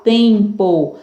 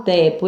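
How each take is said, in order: First: Slow tempo with a nasal em; nasal vowel. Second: Tepo with an oral e; wrong oral vowel. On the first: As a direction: stretch the em of tempo through the nose. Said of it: "Som nasal". (tempo com som nasal) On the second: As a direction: say tepo without any nasal sound. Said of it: "Eu não falo". (tepo sem som nasal) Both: Shown as a demonstration.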